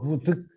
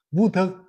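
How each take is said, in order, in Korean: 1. 둘째 음절은 모음 '으'이며 'deuk'입니다. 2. 둘째 음절은 모음 '어'이며 'deok'입니다. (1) "무득 얻을 덕" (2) "무덕 이게 아니고"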